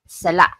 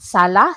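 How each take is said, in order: First: The final vowel ends with an abrupt throat stop. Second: The final vowel ends smoothly without a stop. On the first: It means fault or mistake. "There should be sala, sala. Okay, it's like a sudden stop" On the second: It means living room. "if you just say sala, sala, sala, that means you are at the living room"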